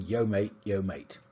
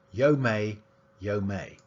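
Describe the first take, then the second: First: Said in the usual way. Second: "may" said with no final T sound, ending open on the vowel; mate without final t. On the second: Shown as a demonstration. Lecturer demonstrating a London speaker's "may" with no final T. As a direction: drop the t entirely so it's "yo may". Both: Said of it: "he pronounced mate as".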